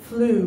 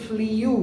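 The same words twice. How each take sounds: First: Flew said as FLOO; correct pronunciation. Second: Flew said as FLEE-yoo; common mispronunciation. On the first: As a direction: say flew with a plain oo, no y. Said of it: "So fly". (flew সঠিকভাবে ফ্লু) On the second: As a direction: put a drawn-out y glide into flew. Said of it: "এগুলো প্রত্যেকটা ভুল". (flew ভুলভাবে ফ্লিউ) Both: Shown as a demonstration.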